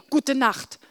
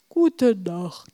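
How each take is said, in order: First: Said in the usual way. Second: Sleepy. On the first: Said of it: "antwortete ich". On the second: Acted. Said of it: "sagte Wilma so verschlafen".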